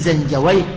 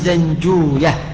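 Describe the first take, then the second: First: The ending is said as '-awayh', with an 'away'. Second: The ending is said as '-ooya', without 'away'. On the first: This follows a regular grammatical pattern. The speaker calls it wrong. "وأهل اللغة على القياس يقولون زنجويه" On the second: This follows how the name's own people said it. The speaker calls it right. "المحدثون يقولون زنجوية"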